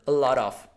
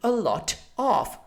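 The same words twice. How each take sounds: First: The T is softened and runs into the vowels. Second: The T is said clearly and crisply. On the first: "in American English, everything becomes more fluid" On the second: "the right proper British pronunciation would be a lot of. So it should be more, uh, it should be clearer"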